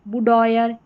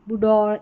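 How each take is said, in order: First: The word ends with an 'oyer' sound. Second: The word ends with a plain 'or' sound. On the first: "ऑयर करके" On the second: "इस तरीके से और करके"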